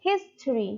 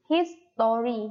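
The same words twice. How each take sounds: First: "history" shortened to HIS-tree; two-syllable history. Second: "history" drawn into his-TO-ry; three-syllable history. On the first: Teacher showing students the English pronunciation, "history" as his-tree. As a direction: drop the middle vowel of "history", his-tree. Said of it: "in English, it pronounced". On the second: Teacher showing students what to avoid, "history" as his-to-ry. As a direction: say "history" with a full "tor" in the middle. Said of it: "Don't say". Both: Shown as a demonstration.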